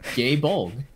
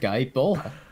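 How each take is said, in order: First: The first word sounds like 'gay', ending 'bolg'. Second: The first word sounds like 'guy', ending 'bola'. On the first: This is how it is said in the Japanese original. "as they pronounce it in Japanese" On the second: This is the speaker's own way of saying it. "my pronunciation of Guy Bola"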